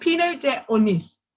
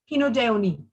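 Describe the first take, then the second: First: The name ends with an audible S sound. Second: The name ends on a vowel, no S. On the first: The speaker calls it wrong. "You kind of imagine it with the S" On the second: The speaker calls it right. "without the S"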